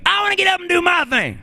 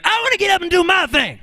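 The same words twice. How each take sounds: First: Very high soul squeal; high funk-star holler; impression of a famous soul singer. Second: Very high call as the band member; high funk sideman's holler; band member's shout. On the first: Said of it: "the singer was going". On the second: Retold or imitated. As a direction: yelp it high like the backing bandsman. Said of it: "that last voice was not the singer. This was the person in his band".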